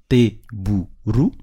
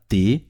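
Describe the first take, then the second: First: Teburu, slow, each syllable te-bu-ru set apart. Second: Said in the usual way. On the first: Shown as a demonstration. Teacher showing pupils teburu slowly, syllable by syllable. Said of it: "Vous avez vu, donc c'est par syllabe". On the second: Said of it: "donc c'est par syllabe".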